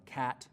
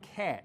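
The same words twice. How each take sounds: First: The vowel is low, open and front. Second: The vowel is raised with a tenser tongue. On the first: This is how most English accents say it. "in most accents of English, the vowel sound in words like" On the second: This is the Northern Cities Shift pronunciation. "pronounced with a little bit tenser tongue and sounds like"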